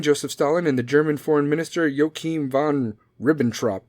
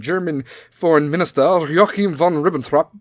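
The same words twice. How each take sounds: First: Said in the usual way. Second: Hammed-up German announcer's accent; punchy, theatrical fake German accent; mock German accent. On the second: Shown as a demonstration. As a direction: relish the name in a put-on German accent. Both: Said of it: "you have to say it like that".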